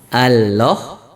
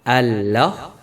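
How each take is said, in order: The two takes are said the same way.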